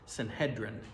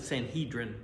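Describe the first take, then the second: First: The E vowel is said short. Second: The E vowel is said long. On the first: This is closer to how it was said in Hebrew. "the E is not necessarily long in the Hebrew pronunciation" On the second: This is the usual English way of saying it. "we pronounce it Sanhedrin"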